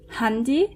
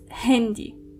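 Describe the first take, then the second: First: The first vowel sounds like an 'a'. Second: The first vowel sounds like an 'e'. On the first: The speaker calls it wrong. "it's not handy" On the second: The speaker calls it right. "it's actually pronounced like an E"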